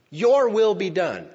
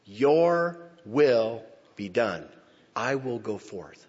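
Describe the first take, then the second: First: Loud, slow and high, a cry of resolve; battle cry. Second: Very slow, calm and certain; accent of victory. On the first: Shown as a demonstration. Preacher voicing Jesus to the congregation, a loud battle cry. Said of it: "Jesus said that as a battle cry". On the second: Retold or imitated. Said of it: "said with an accent of victory".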